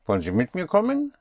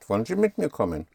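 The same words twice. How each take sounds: First: The voice rises at the end like a question. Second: The voice falls at the end like a request.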